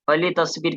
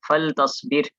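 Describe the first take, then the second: First: The l is followed by a short i vowel. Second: The l is closed with no vowel after it. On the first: "असल है फली तस्वीर" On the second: "लाम साकिन हो जाता है"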